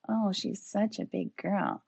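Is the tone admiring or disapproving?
disapproving. It sounds critical and disapproving.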